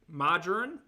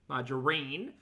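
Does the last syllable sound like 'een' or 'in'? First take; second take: in; een. First: The last syllable is a short 'in' sound. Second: The last syllable is a long 'een' sound. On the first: The speaker calls it wrong. "Is that how you say it? Because that's wrong" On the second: The speaker calls it right. "rhymes with tambourine"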